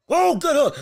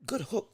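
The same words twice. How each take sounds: First: Excited. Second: Said in the usual way. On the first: Real, not acted. Excited call of a punch.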